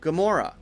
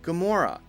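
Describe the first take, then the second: First: The first vowel is weak and reduced. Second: The first vowel is weak and reduced.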